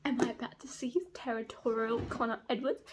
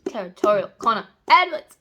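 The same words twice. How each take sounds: First: Softly asked, hopeful question; barely daring to hope, keep it quiet; hushed anticipation. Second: Loud, emphatic fangirl demand; excited craving. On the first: Reader hoping for a jealous scene, hushed anticipation. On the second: Reader needs some of this hero, loud excitement. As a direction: belt it out like you're craving it. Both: Real, not acted.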